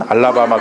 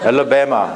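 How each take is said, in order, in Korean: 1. 첫 모음은 열린 'ah'예요. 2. 첫 모음은 앞쪽의 'eh'예요. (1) "그러면 안 돼요" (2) "이렇게 발음해야 돼요"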